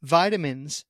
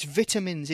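First: "vitamins" with long I, as VY-duh-mins; American "vitamins". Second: "vitamins" with short I, as VIT-uh-mins; British "vitamins". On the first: Retold or imitated. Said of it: "No, it's vitamins". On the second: Shown as a demonstration. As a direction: say "vitamins" with a crisp T after short I. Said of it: "It's a T".

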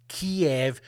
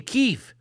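First: Kiev said KEE-ev, two syllables; old pronunciation. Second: Kyiv said as one clipped KEEV; new pronunciation. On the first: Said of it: "Is it Kiev or is it Kyiv?". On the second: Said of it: "I should be saying". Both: Shown as a demonstration.

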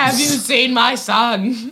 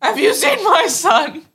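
First: Screaming parent. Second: High, slow, loud desperate cry; screaming parent. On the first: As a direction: plead it like a panicked parent. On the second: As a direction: yell it like a frantic parent. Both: Retold or imitated. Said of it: "Screaming parent".

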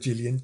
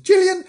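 First: Said in the usual way. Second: Very high echo of the name; high mock squeal. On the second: Reader echoing Gillian's name, high mock squeal. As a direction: squeak the name as a silly aside.

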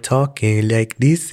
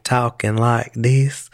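First: Imitated Southern drawl turning French; accent sliding into French. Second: Slow imitated Southern American accent; Southern drawl. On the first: Imitating the NPR woman's change, Southern drawl sliding into French accent. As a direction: let the Southern accent tip towards French. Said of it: "then it went into a French ac". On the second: Imitating a woman heard on NPR, slow Southern drawl. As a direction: stretch it out in a mock Southern drawl. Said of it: "the Southern drawl is a French accent".

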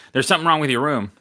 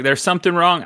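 First: Said in the usual way. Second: Higher-pitched, shaky attempt at a Jamaican accent; struggling Jamaican accent. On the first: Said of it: "I'm just gonna say". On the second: Manager warning a guest, struggling Jamaican accent. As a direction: try and fail at a Jamaican accent. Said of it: "I'm struggling with it".

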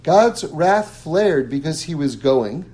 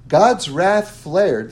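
First: Said in the usual way. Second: Slow and weighty, each word laid down; dramatic reading. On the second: Shown as a demonstration. Teacher reading the verse to his class, slow and grave. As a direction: read out God's wrath slowly and gravely. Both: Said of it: "I'll read you the".

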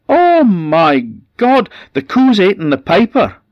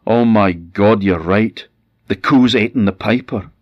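First: Shrieking in horror, high and loud; wife screaming in terror at the byre; horrified scream. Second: Loud, higher, aghast; husband aghast at the cow's supposed meal; shocked dismay. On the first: A narrator's reading. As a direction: scream it out like she's found a corpse. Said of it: "and then she screamed". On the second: Acted. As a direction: blurt it out in shock. Husband sees the boots and feet.

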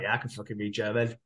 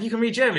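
First: Low, soft acted nonchalance; imitating a casual, muted comeback; offhand reply. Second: High-pitched mock disbelief; imitating someone amazed, pitched well up; surprised question. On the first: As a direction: answer as if it's obvious. Acted offhand answer to surprised question. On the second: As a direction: act out an astonished question. Acted surprised question about Darcy.

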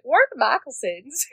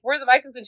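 First: Hammed-up Southern twang; fake Southern accent. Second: Said in the usual way. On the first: Zoe posing at check-in, fake Southern accent. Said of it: "fakes a Southern accent". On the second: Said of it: "So not only is she like".

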